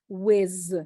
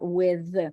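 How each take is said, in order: First: The final sound is a buzzing z. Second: The final sound is a th. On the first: The speaker calls it wrong. "a lot of people say with" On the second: The speaker calls it right. "not with"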